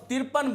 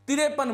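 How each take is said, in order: First: तिरपन said tir-pan, no extra vowel; teacher models the correct तिरपन; correct pronunciation. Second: तिरेपन with an added e, the common mistake; teacher imitates the wrong तिरेपन; wrong pronunciation. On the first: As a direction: join तिर and पन cleanly into तिरपन. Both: Shown as a demonstration. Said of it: "अशुद्ध उच्चारण करते हैं".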